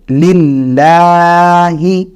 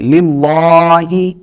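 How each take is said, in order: First: The L is pronounced thin and light. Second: The L is pronounced heavy and full. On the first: The speaker calls it right. "इसको बारीक पढ़ेंगे" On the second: The speaker calls it wrong. "बाज लोग ये वाली जो लाम है इसको पुर पढ़ जाता है"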